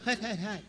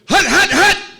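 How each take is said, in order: First: It is said flatly with little energy. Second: It is said loudly with lots of energy.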